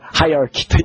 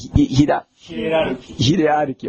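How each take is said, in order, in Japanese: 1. 英語式に発音されます。hai-a-ki。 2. 日本語の外来語として発音されます。hi-e-ra-ru-ki。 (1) "英語ではハイアーキー" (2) "日本語で"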